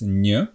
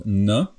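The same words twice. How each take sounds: First: N said soft and palatal like ny in canyon; soft palatal n, the right version. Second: N said hard and plain, tongue not raised; plain hard n, the wrong version. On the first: Teacher contrasting Slovak n sounds, soft palatal n. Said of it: "it's n". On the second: Teacher contrasting Slovak n sounds, hard plain n. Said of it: "it's not n". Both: Shown as a demonstration.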